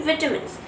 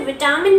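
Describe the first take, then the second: First: विटामिन्स with a short middle vowel; correct pronunciation. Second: विटामिन with a long "taa"; pronunciation to avoid. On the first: Teacher answers what we will say, short middle विटामिन्स. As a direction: say विटामिन्स as VI-tuh-mins. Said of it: "इसे हम क्या बोलेंगे?". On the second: Teacher says what not to say, long middle विटामिन. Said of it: "हम इसे विटामिन ना बोल के". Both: Shown as a demonstration.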